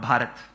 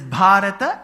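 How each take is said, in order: First: The final vowel is dropped, ending on t. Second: It ends with a short final a vowel. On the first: The speaker calls it wrong. "and not Bharat" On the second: The speaker calls it right. "So it is Bharata"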